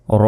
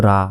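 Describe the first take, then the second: First: র as a held "raw" with rounded vowel; correct rounded ro. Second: রা with an open aa; wrong ra. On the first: Teacher giving the correct letter, rounded ro. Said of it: "এটাকে বলতে হবে". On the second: Teacher quoting the common mistake, open ra. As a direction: say রা short as "raa". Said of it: "এটা কিন্তু ভুল". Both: Shown as a demonstration.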